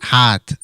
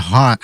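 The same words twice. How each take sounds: First: "hot" for heart, with the R dropped; imitated R-less "hot"; imitating Jimmy's pronunciation. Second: Said in the usual way. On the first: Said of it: "as, uh, Jimmy would say". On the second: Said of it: "Jimmy would say".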